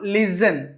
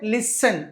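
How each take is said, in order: First: The middle consonant is a buzzing z sound. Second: The middle consonant is a hissing s sound. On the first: The speaker calls it wrong. "It's not లిజన్" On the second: The speaker calls it right. "సా పలకాలండి, సా"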